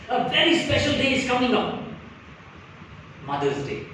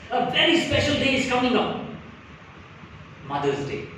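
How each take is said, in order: First: There is a clear pause before Mother's Day. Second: The same.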